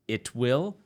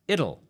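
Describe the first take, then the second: First: It is said as two full words. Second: It is said as one contracted word. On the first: "It will becomes it'll" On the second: "becomes it'll"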